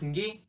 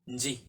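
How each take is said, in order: First: The syllable has a hard g sound. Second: The syllable has a j sound. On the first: The speaker calls it right. "Instead of ngi" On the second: The speaker calls it wrong. "Sometimes this is how it is sounded"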